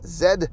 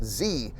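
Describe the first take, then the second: First: The letter is said the Canadian way. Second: The letter is said the American way. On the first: "all English-speaking countries in the world say the last letter of the alphabet as Z" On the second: "not Z. Only America says Z"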